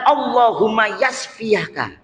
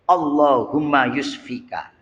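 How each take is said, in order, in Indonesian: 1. Kata kerjanya diawali vokal a setelah y. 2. Kata kerjanya diawali vokal u setelah y. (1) "yang benar" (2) "itu artinya membinasakan"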